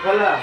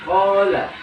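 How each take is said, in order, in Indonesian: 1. Vokal panjang dipotong menjadi pendek. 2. Vokal panjang ditahan sampai panjangnya penuh. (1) "bukan hola" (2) "sempurnakan dulu matnya, hola"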